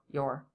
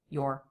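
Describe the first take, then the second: First: The vowel is a full aw before R. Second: The same.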